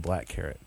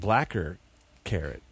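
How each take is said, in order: First: No extra sound comes between the two words. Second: An extra 'er' sound follows 'black'. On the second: "I'm always like blacker carrot"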